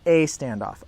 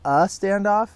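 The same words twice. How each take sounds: First: The article is a full 'ay' sound. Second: The article is a short 'uh' sound.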